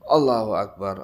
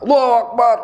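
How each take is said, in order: First: It is said at a calmer, quieter volume. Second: It is shouted loudly. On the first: The speaker calls it right. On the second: The speaker calls it wrong.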